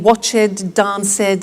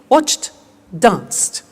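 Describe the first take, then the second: First: The endings are extra syllables with a vowel. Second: The endings are plain t sounds, no vowel. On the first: The speaker calls it wrong. "the temptation is to say" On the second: The speaker calls it right. "we eliminate the E and we add T"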